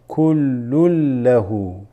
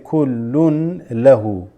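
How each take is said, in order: First: The two words are joined with a doubled L. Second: The two words are said separately, without linking. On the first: The speaker calls it right. "This joins" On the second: The speaker calls it wrong. "you can't say kullun lahu"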